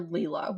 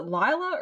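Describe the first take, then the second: First: Leela with a long "ee" vowel; chosen name pronunciation. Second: Lila with a long "eye" vowel; alternative name pronunciation. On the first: Host asks co-host about a name, Leela pronounced LEE-la. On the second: Host asks co-host about a name, Lila pronounced LIE-la. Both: Shown as a demonstration. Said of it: "I'm gonna pronounce it Leela".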